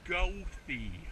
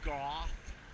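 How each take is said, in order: First: The name does not sound like goth. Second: The name sounds like the word goth. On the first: The speaker calls it right. "No, it's Goethe" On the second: The speaker calls it wrong. "they say the name of the street wrong. They say it like they say like goth"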